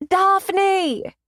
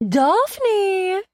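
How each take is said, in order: First: A loud, bad British accent on Daphne!; awful British accent. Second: Calling a name out high and loud; excited shout. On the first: Layla calling out to her friend, a bad British accent. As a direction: yell Daphne! in a hammed-up fake British accent. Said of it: "in a very awful British accent". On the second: Kristen greeting her friend from the limo, a gleeful loud shout. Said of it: "even louder than Kristen had". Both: A narrator's reading.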